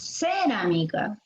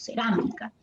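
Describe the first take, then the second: First: The stress is on the first syllable. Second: The stress is on the second syllable. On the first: The speaker calls it wrong. "si fuera en la C, ¿cómo diríamos?" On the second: The speaker calls it right. "ahí está la fuerza de voz"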